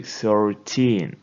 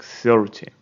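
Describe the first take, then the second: First: Put-on thirTEEN, stress on the last syllable TEEN; stress on the end. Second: THIRty, stress on THIR; stress on the first syllable. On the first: Teacher shows thirteen's stress to class. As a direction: lean on TEEN. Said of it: "Most of the stress goes to the end". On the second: Teacher shows thirty's stress to class. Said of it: "stress on the first syllable". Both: Shown as a demonstration.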